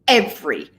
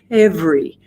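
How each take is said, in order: First: The voice starts with a hard throat catch. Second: Breath and voice start together at once. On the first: "Glottal attack is where the vocal folds smash together" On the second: "simultaneous, where the air and the vocal folds begin together"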